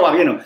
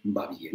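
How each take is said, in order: First: Said in the usual way. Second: Much lower, much softer va bien; "Va bien" said low and dull; flat low va bien. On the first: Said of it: "No, no, no". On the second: Shown as a demonstration. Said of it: "así voy a decir".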